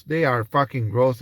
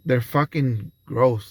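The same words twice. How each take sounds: First: "They" hit with a rising tune; stress on They. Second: Slow, deliberate disgust; slow and drawn out. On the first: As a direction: lean hard on "They are" to insist. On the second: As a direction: drag each word out slowly. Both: Shown as a demonstration.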